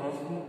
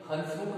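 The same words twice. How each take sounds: First: हंसमुख with a nasal vowel, sound through the nose, as हँसमुख; correct pronunciation. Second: हंसमुख with a full n before स, as हन्समुख; wrong pronunciation. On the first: Teacher giving the right form, nasal हंसमुख. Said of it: "हम हंसमुख बोलते हैं". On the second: Teacher showing the mistake, full n in हंसमुख. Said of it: "हंसमुख नहीं बोलते". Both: Shown as a demonstration.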